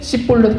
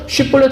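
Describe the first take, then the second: First: The word begins with an s sound. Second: The word begins with a sh sound. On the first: The speaker is an Ephraimite. The speaker calls it wrong. "씹볼렛 그러면은 에브라임 사람" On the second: The speaker is not an Ephraimite. The speaker calls it right. "쉬볼렛 하면은 그러면 넘어가 되죠"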